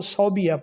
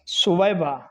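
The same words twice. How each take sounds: First: صوبیہ as "sau-bi-ya"; common mispronunciation. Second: سویبہ as "su-wai-ba"; careful three-part su-wai-ba for سویبہ; correct pronunciation. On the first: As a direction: say صوبیہ ending in "biya". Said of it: "غلطی ہے". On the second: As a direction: say سویبہ with short u, then "wai". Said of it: "درست لفظ سویبہ ہے". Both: Shown as a demonstration.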